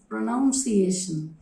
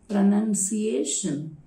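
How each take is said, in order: First: The second syllable sounds like 'nounce'. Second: The second syllable sounds like 'nun'. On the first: The speaker calls it wrong. "People normally pronounce this word as pronunciation" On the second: The speaker calls it right. "the noun form of it is pronunciation"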